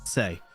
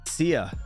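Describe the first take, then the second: First: The name is said with one syllable. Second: The name is said with two syllables. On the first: The speaker calls it right. "I think it's Say" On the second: The speaker calls it wrong. "Why did I say Sia?"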